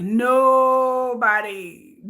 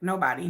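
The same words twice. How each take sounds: First: "Nobody" stretched very slow and held, louder; drawn-out nobody. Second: Said in the usual way. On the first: Shown as a demonstration. Speaker to viewers, drawing out "Nobody" very slowly. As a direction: drag out "Nobody" for emphasis. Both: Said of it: "emphatic repeats".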